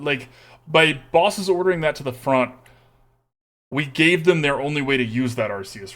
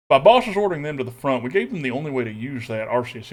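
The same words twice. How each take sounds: First: Said in the usual way. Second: Put-on Texas accent. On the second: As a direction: say it in a thick Texan accent. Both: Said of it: "Making me do this accent here".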